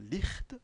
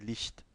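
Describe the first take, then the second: First: The ch is a rough sound from the throat. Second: The ch is a soft hiss near the palate. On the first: The speaker calls it wrong. "C'est pas Licht" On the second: The speaker calls it right. "c'est Licht"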